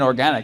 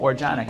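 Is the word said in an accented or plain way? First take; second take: plain; accented. First: It is said in a plain, standard way. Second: It is said with a put-on foreign accent. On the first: "I think you mean organic" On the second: "I give it like an ethnic pronunciation"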